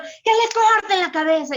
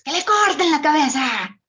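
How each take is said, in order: First: Loud, much higher furious command; angry king shouting. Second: High, loud furious royal command; Queen of Hearts. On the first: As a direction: order the beheading in a rage. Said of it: "así era Nabucodonosor". (Nabucodonosor gritando con furia) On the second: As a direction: bark the order like a mad queen. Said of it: "la reina de corazones de Alicia". (la Reina de Corazones gritando furiosa) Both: Retold or imitated.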